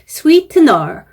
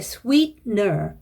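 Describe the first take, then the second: First: The middle t sound is clearly released. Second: The middle t sound is held back, unreleased. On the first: The speaker calls it wrong. "sweetener 말고" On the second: The speaker calls it right. "트 소리가 나지 않게"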